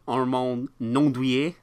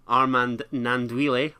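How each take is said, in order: First: The name is pronounced in an exaggerated French way. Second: The name is pronounced in a plain English way.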